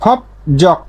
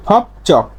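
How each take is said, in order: First: Said in the usual way. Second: ফপ চক with a hard ch, not j; changed consonant. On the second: Shown as a demonstration. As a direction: say ফপ চক, the j turned to ch. (ফপ চক, জ-এর জায়গায় চ উচ্চারণ) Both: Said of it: "না হয়ে কি হবে?".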